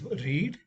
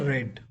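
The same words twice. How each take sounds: First: It has a long vowel, like 'reed'. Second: It has a short vowel, like 'red'. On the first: The action happens now. "in present tense, it is read" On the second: The action happened in the past. "in the past tense, it's a read"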